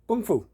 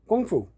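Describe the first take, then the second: No difference in how they are said.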